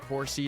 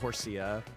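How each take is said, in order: First: The word ends on a plain 'see' sound. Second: The word ends with an added 'uh' sound. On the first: The speaker calls it right. "I say it more like horsey" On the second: The speaker calls it wrong. "not horsia"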